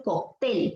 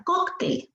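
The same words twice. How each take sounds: First: "cóctel" said as coc-TEL; stress on last syllable. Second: "cóctel" said as COC-tel; stress on first syllable. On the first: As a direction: push the final TEL of "cóctel". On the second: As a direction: lean on COC, let tel drop in "cóctel". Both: Shown as a demonstration. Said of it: "Si fuese cóctel".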